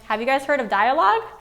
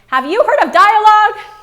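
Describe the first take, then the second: First: It is asked in a calm, normal voice. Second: It is screamed in a loud voice.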